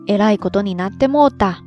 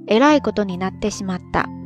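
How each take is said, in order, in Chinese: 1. 这句话是关西方言。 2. 这句话是标准日语。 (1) "如果你要用非常地道的关西方言来表达的话" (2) "平时呢是这样说的"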